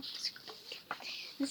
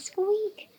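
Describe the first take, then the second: First: A tiny, much softer squeak breathed with no voice; whispered squeak. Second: A high, louder squeak called out like a little dog; squeaky cry. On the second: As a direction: pitch it up and squeak out loud. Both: Pretend. Whispered squeak, then loud squeak.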